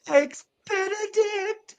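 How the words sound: It sounds joyful.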